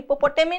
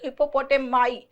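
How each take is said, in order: First: The final syllable ends with an "ee" sound. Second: The final syllable ends with an "eye" sound. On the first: The speaker calls it wrong. "मी नहीं है, हिप्पोपोटेमी नहीं" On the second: The speaker calls it right. "माई है इसका pronunciation"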